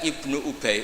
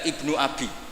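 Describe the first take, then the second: First: The name is pronounced Ubay. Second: The name is pronounced Abi. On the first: The speaker calls it right. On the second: The speaker calls it wrong.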